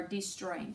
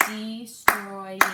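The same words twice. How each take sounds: First: Said in the usual way. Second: "Destroying" loud and drawn out in separate syllables; teacher's loud, careful breakdown of "Destroying". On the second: Shown as a demonstration. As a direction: sound out "Destroying" loudly, one syllable at a time. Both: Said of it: "three syllables".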